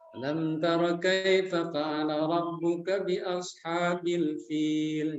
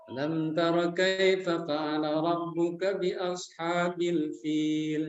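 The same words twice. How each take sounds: First: The whole phrase flows in one breath. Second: The whole phrase flows in one breath.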